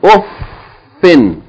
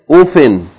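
First: The f sound is held and doubled. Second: The f sound is short and single. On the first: The speaker calls it right. "Hold the fa because it's shadda, so it has to be doubled" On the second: The speaker calls it wrong. "Don't say uffin"

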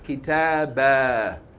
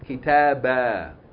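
First: The word ends with a long a vowel. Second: The word ends with a long a vowel.

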